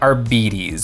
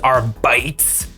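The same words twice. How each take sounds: First: The second syllable sounds like 'beet'. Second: The second syllable sounds like 'bite'. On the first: The speaker calls it right. "the appropriate pronunciation is Beatty" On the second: The speaker calls it wrong. "bite just sounds so much more intimidating and aggressive"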